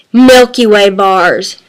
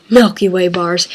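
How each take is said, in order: First: Slow, drawn-out low answer; savoring emphasis. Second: Softer, low, quicker aside; quiet repeat. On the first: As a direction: linger on each word of the candy name. Candy answer, first take before softer repeat. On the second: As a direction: say it low to yourself. Same answer repeated as soft aside. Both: Real, not acted.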